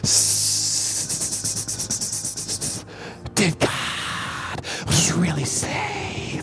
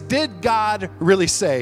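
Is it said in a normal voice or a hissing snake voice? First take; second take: snake voice; normal voice. First: It is said in a hissing snake-like voice. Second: It is said in a plain speaking voice.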